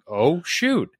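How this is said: It is said in an inviting, encouraging tone. "It's like"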